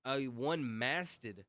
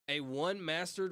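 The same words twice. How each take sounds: First: "one-masted" said slowly, ending in "-tid" with no r; careful correction. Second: "one-masted" misread with an r, as "mastered"; misread word. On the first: Corrects the misread word slowly. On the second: Misreads word, then corrects it. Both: Real, not acted.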